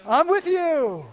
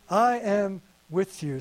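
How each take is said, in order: First: Slow, gently spoken and high; slow tender promise. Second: Slow quiet promise. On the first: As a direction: say "I'm with you" slowly and lovingly. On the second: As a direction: let the words sink in slowly. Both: Acted. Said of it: "The Lord says".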